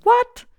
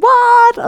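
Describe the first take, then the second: First: High, loud disbelieving what; stunned what. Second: Very high, loud disbelieving what; shocked what. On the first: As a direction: squeal it in happy disbelief. Unexpected joy, disbelief. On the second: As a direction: yelp it as the phone blows up. Phone exploding with messages. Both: Retold or imitated.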